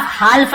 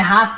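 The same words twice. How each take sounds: First: "हाल्फ" said hal-f with the l sounded; "हाल्फ" with a clear l before f; wrong way, half with l. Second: "हाफ" said haaf, l silent; "हाफ" with a long a, no l at all; right way, silent l. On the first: Teacher to students, showing the wrong reading "हाल्फ". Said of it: "हाल्फ नहीं पढ़ेंगे". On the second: Teacher to students, correcting the reading to "हाफ" with silent l. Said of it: "हाफ पढ़ेंगे". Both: Shown as a demonstration.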